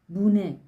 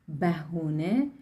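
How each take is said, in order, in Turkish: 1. İki heceye kısalmış: bune. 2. E ve u ünlüleriyle üç hece: behune. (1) "ve hatta bune şeklinde de telaffuz ediliyor" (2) "şeklinde de telaffuz ediliyor"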